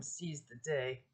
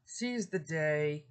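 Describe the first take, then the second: First: Said in the usual way. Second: "Seize the day" drawn out slowly, every word weighted; slow emphatic. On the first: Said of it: "with the theme Carpe Diem". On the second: Shown as a demonstration. Lecturer driving home carpe diem, slow and emphatic. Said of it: "time is fleeting".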